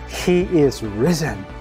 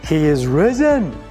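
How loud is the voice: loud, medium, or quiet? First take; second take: quiet; medium. First: It is said at the quietest level. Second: It is said at a medium level. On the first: "each time I'm going to crescendo my tone" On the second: "each time I'm going to crescendo my tone"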